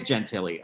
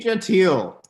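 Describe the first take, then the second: First: Gentili said as jen-TILL-ee; corrected surname pronunciation. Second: Gentile said as zhen-TEEL; mispronounced surname. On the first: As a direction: say Gentili in three syllables, ending in "ee". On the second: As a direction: say Gentile in two syllables, ending in "teel". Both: Real, not acted. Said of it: "I've been pronouncing it wrong".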